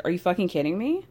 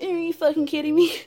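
First: Disbelieving question, rising at the end; a lightly voiced incredulous Ariana; incredulous retort. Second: Parroting mockery, higher and louder; higher, louder mocking copy of the same line; mocking echo. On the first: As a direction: throw it back in disbelief. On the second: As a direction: mimic her words back at her. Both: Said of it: "So Lala starts saying".

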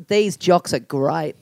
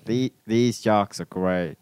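First: Broad Aussie, very slow and low; "great" stretched toward "grite" in broad Australian; Australian accent. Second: Slow, low imitation of Australian; tentative Australian, "great" kept close to "grate"; attempted Australian accent. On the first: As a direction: model a thick Australian accent slowly. Model line for accent imitation. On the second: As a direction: copy an Aussie accent carefully, word by word. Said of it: "I don't know how to talk like you guys". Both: Shown as a demonstration.

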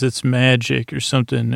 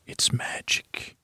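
First: Said in the usual way. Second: Breathy hushed whisper, slow. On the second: Retold or imitated. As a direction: breathe it out like a secret, unvoiced and slow. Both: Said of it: "and he says it like a whisper".

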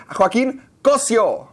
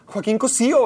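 First: Slow "Joaquín Cosio", stress on the "o" of "Cosio", "sio" as one syllable; Cosio without the accent. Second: "Cosío" with the stress on "í", "Co-sí-o" in three syllables; Cosío with the accent. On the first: Correcting a friend on the poster's spelling, "Cosio" said slowly, stress on the "o". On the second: Realizing the name is written with an accent, "Cosío" stressed on the "í". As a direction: lean on the "í" of "Cosío". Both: Shown as a demonstration. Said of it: "en el pinche poste hay un acento".

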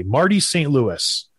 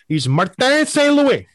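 First: Said in the usual way. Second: Martin said the French way, high and slow; French name pronunciation. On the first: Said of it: "He was Marty when he was in Tampa Bay". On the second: Shown as a demonstration. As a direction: say Martin Saint Louis with a French lilt. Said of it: "Now he's in Montreal".

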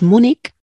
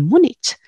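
First: "Múnich" ending in a hard k. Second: "Múnich" ending in a Spanish ch. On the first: Linguist citing the accepted variant, "Múnich" with final k. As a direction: say "Múnich" as if spelt Múnik. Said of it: "eso lo acepta la rae". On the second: Linguist on what sounds wrong, "Múnich" with final ch. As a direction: say "Múnich" with ch as in chico. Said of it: "terminando en Múnich". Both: Shown as a demonstration.

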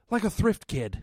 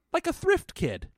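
First: Matter of fact, disappointed. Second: Flat matter-of-fact line. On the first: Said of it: "The delivery was really like". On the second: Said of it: "I can't even do the delivery". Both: Retold or imitated.

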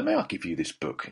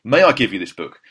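First: Soft, low, deferential request; polite approach. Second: Louder, earnest retold request; emphatic offer. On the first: Retold or imitated. Host offering his book to a star, politely tentative. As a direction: ask softly, as if not to intrude. Timid first approach to Colin Firth. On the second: Host offering his only copy to a star, emphatic. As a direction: make the formal offer boldly.

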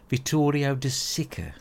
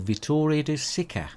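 First: "Vittorio De Sica" drawn out slowly and pitched higher, hamming up an Italian pronunciation; mock Italian. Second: Said in the usual way. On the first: Shown as a demonstration. Having a go at the Italian director's name, in a hammed-up mock Italian accent. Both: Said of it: "I don't speak fucking Italian".

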